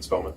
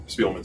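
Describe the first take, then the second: First: Spellman with a short E in the first syllable; "Spellman", first vowel as in "bed"; name said Spellman. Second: Spielman with a long EE in the first syllable; "Spielman", first vowel as in "speed"; name said Spielman. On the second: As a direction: say SPEEL-man, "Spielman". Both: Real, not acted. Tries both versions of the name.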